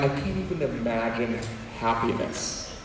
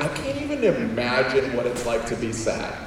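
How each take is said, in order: First: Low, hushed gloom; imitating someone sunk in sadness; mock sad. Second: Lightly acted happy obliviousness; mock happy. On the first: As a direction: sink down soft and low, as if hopeless. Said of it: "been sad and you're like". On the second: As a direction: play carefree, can't-imagine-it happiness. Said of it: "then you're happy and you're like".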